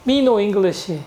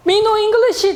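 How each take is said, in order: First: Said in the usual way. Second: High-pitched, hammed-up non-English speaker; imitating broken English. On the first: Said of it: "이게 직방이에요". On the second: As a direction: blurt it high, pretending to know no English. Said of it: "영어도 한마디도 못한다". (영어 못하는 척 높은 목소리로)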